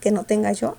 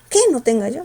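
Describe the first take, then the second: First: The word 'que' is said without stress. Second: The word 'que' is said with strong stress. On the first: The speaker calls it right. "el segundo que no se pronuncia con fuerza" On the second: The speaker calls it wrong.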